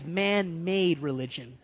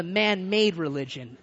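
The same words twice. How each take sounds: First: "man-made" set apart with deliberate emphasis; stress on MAN-MADE. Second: Said in the usual way. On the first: Shown as a demonstration. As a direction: lean on both words of "man-made". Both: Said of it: "Emphasize man-made religion".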